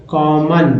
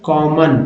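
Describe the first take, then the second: The two takes are said the same way.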